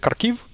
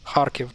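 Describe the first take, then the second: First: The stress is on the second syllable. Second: The stress is on the first syllable. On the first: The speaker calls it wrong. "So it's not uh" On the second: The speaker calls it right. "that's the right way to pronounce this name"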